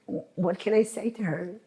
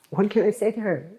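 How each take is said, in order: First: Said in the usual way. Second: Rushed, pleading repeat; fast desperate repeat. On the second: Real, not acted. Grieving relative repeating her helpless question, rushed. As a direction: blurt the question out again, faster.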